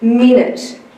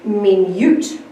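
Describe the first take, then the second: First: The word is said in its everyday pronunciation. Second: The word is pronounced letter by letter as written. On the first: "If I was to read this word, I would say" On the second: "If I were to use my spelling voice"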